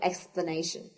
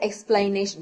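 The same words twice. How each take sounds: First: The second syllable sounds like 'pla', not 'plain'. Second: The second syllable sounds like 'plain'. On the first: The speaker calls it right. "because it doesn't have the I letter in here" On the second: The speaker calls it wrong. "you don't say explanation. No, no, that's wrong"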